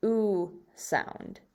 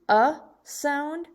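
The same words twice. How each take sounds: First: "oo" set off before "sound"; long U sound. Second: "uh" higher, set off before "sound"; short U sound. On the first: Teacher contrasts tube with tub, a long "oo". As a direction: say "oo" as the vowel in tube. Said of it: "the word tube that makes the". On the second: Teacher contrasts tub with tube, a short "uh". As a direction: say "uh" as the vowel in tub. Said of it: "So we have tub". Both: Shown as a demonstration.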